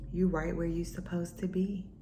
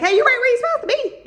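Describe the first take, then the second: First: It is said in a deep, calm, slow voice. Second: It is said in a high-pitched, poppy voice.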